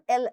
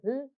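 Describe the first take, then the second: First: L is said as the letter name. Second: L is said as a bare consonant sound. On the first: The speaker calls it wrong. "so it's not L, L, L. Don't say that" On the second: The speaker calls it right. "When we talk about the sound, we say"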